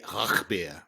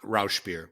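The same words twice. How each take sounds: First: Rauchbier with a throaty German ch; German pronunciation. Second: Rauchbier anglicized as ROWSH-beer; American pronunciation. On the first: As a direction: say Rauchbier the German way, ch as in Bach, soft final r. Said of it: "in German, I guess they say". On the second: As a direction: say Rauchbier with an English sh and a clear final r. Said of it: "in English, we say". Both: Shown as a demonstration.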